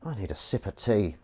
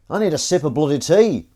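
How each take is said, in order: First: Said in the usual way. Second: "bloody tea" pushed higher and louder; fed up, demanding tea; exasperated, louder repeat. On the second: Real, not acted.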